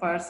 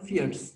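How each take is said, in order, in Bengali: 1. স্বরধ্বনিটি 'fire' শব্দের মতো শোনায়। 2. স্বরধ্বনিটি 'fear' শব্দের মতো শোনায়। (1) "এটা উচ্চারণটা অনেকে ফায়ার্স বলে, ফায়ার্স না" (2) "এটা হলো ফিয়ার্স"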